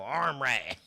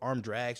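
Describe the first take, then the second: First: The 'd' sound in the second word is dropped. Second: The 'd' sound in the second word is kept.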